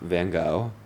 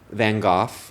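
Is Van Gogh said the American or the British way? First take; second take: American; British. First: It is said in an American pronunciation. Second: It is said in an English pronunciation.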